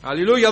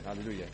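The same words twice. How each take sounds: First: Loud, high rising Αλληλούια, cried out to the church; exultant hallelujah. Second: Low, soft falling Αλληλούια, almost to himself; soft hallelujah. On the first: Preacher to congregation, joyful loud cry. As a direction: call out Αλληλούια with the voice lifting at the end. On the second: Preacher after the promise, hushed murmur. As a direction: breathe Αλληλούια quietly and let it drop. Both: Real, not acted.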